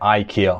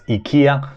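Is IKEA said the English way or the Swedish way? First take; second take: English; Swedish. First: IKEA is said with an English pronunciation. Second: IKEA is said with a Swedish pronunciation. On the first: "we're from U K and U S, we say IKEA" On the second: "for those who are from Sweden, you might pronounce it as IKEA"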